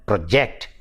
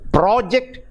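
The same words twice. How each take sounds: First: Pro-JECT, weight on JECT; second-syllable stress. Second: PRO-ject, high on PRO; first-syllable stress. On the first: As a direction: verb "project" with a light first syllable. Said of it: "the stress shifts from the first syllable to the second". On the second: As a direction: noun "project" with the first syllable punched. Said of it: "the stress is on the first syllable". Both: Shown as a demonstration.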